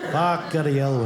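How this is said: The name is said with an Italian-style flourish.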